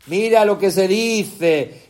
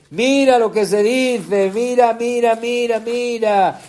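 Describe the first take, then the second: First: Said in the usual way. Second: Building excitement. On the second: Shown as a demonstration.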